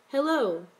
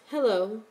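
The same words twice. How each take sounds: First: A shy, drawn-out hello falling at the end; friendly, shy. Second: Guarded hello with a questioning lift; cautious. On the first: Stranger greets the boy at the school, friendly and shy. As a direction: offer a friendly, bashful greeting. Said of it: "said in a low, friendly, shy voice". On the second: Boy answers an approaching stranger, cautious. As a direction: answer warily, rising at the end. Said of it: "answered with a cautious". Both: A narrator's reading.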